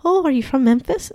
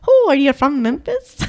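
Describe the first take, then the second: First: Higher-pitched, amateur Irish lilt; jokey, not very good Irish accent; attempted Irish accent. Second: Hammed-up, higher-pitched Irish lilt; exaggerated stage-Irish question; overdone Irish accent. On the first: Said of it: "Can you do a good Irish?". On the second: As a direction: lay the Irish accent on too thick. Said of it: "That's a little too much". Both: Shown as a demonstration.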